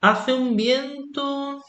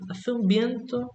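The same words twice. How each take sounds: First: Slow, high, stretched "Hace un viento" with weight on "un"; exaggerated emphasis, "un" held long and lifted; emphatic. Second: Said in the usual way. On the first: Shown as a demonstration. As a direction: lean hard on "un" in "Hace un viento", drawn out and high. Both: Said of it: "you put a lot of emphasis on this action".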